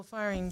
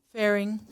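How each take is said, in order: First: "firing" said as FIRE-ing, slip of the tongue; "firing" misread, FIRE-ing instead of Faring; misread name. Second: "Faring" said as FAIR-ing, corrected; "Faring" fixed, clear FAIR-ing; corrected name. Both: Real, not acted. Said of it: "my apologies".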